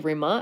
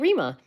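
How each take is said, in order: First: The name is said the Lithuanian way. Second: The name is said the American way. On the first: The speaker calls it wrong. "I don't say Rima" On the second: The speaker calls it right. "I say Rima"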